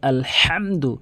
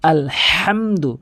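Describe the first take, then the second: First: The 'h' is a deep sound from mid-throat. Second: The same.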